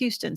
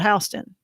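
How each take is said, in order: First: It is said the Texas way. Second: It is said the Georgia way, as spelled.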